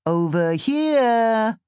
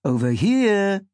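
First: High, loud, slow sing-song; sing-song call. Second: Second voice echoing, loud and drawn out; deeper sing-song call. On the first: First voice calls to Sam, sing-song. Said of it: "calls in a sing-song voice". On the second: Second voice joins in calling Sam, deeper tone. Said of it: "second voice in a deeper tone". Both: A narrator's reading.

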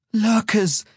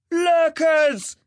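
First: High, strained cry of fear; frightened gasp. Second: Long, loud, high warning call; lookout's bellow. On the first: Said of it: "gasped, his voice strained with fear". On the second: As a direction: bellow the alarm from a watchtower. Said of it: "he bellowed". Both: A narrator's reading.

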